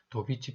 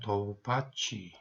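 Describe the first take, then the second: First: The middle vowel sounds like 'i'. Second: The middle vowel sounds like 'a'. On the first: This is the pronunciation used in Korea. "우리는 도비치라고 발음을 합니다" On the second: This is the English pronunciation. "영어로는 도바치"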